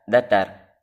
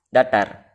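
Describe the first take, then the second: No difference in how they are said.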